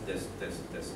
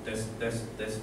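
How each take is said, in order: Both takes have the same delivery.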